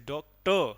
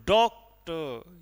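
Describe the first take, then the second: First: "doctor" with a light first syllable and a louder, stressed last syllable; "doctor" as unstressed-then-stressed, dok-TAR; rising stress. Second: "doctor" slow, with a loud, drawn-out first syllable and a light टर; "doctor" as stressed-then-unstressed, DOK-tar; falling stress. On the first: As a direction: say "doctor" rising, leaning hard on the final टर. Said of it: "हमारी आवाज़ क्या हो रही है, rise हो रही है". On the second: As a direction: hit the डॉक of "doctor" hard, then let टर drop away. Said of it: "rise से fall". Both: Shown as a demonstration.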